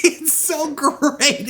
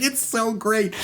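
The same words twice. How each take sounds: First: Drawn out high through a laugh; slow, laughing delight. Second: Said in the usual way. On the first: Real, not acted. Host gushing about the film, slow and high through laughter. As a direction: savor it, still laughing. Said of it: "host laughing". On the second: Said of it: "repeat calmer".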